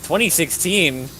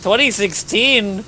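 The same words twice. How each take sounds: First: "Twenty sixteen?" asked slower, higher and louder, falling at the end; mock disbelief at the year; incredulous. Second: "Twenty sixteen?" much higher and louder, slow and falling; overplayed disbelief at "Twenty sixteen?"; exaggerated incredulous. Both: Real, not acted. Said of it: "What's with that twenty sixteen voice?".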